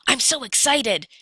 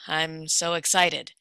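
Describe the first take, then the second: First: It is said with a lively, enthusiastic tone. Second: It is said with a flat, unenthusiastic tone. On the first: The speaker is truly excited. "vocal quality that conveys emotion, such as enthusiasm" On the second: The speaker is not really excited. "this is me using tone in a different way"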